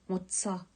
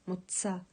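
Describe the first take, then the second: Both takes have the same delivery.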